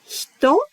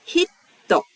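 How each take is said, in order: First: "Hito" in two even morae, hi-to, no pause; plain Hito. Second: "Hitto" with a silent beat before the t, hi-t-to; Hitto with a pause. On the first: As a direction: say "Hito" smoothly, no break between the syllables. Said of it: "That's two". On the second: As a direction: hold a short silent stop in the middle of "Hitto". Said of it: "Did you hear the silent pause in the middle?". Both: Shown as a demonstration.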